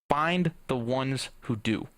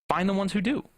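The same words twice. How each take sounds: First: Slow emphatic. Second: "Find the ones who do" repeated higher, lifting on "do"; higher encouraging echo. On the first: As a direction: lean on "find", slow and grounded. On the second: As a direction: echo it brighter, rising at the end. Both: Real, not acted.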